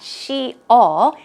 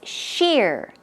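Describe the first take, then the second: First: The word is split into two syllables. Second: The word is said as one syllable. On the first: The speaker calls it wrong. "It's not she-all" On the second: The speaker calls it right. "this is one syllable"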